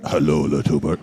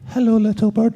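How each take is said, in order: First: A low, darker take of Hello, little bird; Hello, little bird dropped low and rough; low, gruff line. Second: A high, squeaky take of hello, little bird; Hello, little bird with a tight, high squeak; squeaky nervous line. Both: Retold or imitated. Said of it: "And you're going".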